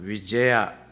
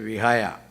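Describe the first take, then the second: First: The middle consonant is a J sound. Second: The middle consonant is an H sound.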